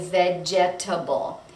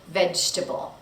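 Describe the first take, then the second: First: All four syllables are said, including the second. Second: The second syllable is dropped, leaving three syllables. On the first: The speaker calls it wrong. "We don't say vegetable" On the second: The speaker calls it right. "the second syllable is dropped"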